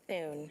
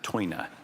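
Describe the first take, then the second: First: It sounds like 'soon' said with a lisp. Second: It is said as two syllables, 'toy-na'. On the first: "Soon with a lisp, is how you say it" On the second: "In Dutch, it's uh"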